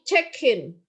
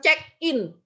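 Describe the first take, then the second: First: The two words run together without a break. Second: The two words are said with a break between. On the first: The speaker calls it right. "tapi check in" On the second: The speaker calls it wrong. "bukan check in"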